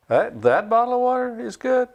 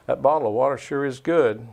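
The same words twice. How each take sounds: First: "good?" rising way up high and incredulous; much higher, asking "good?" in disbelief; doubtful question. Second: Said in the usual way. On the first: Shown as a demonstration. Teaching inflection with a bottle of water, rising doubt. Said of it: "two different ideas". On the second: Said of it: "We communicate with inflection".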